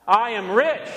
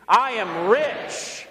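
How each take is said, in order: First: Said in the usual way. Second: "I am rich" drawn out very slowly with conviction; like you mean it. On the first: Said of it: "Say it with me". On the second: Shown as a demonstration. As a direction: stretch "I am rich" out, meaning every word. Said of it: "Say it like you mean it".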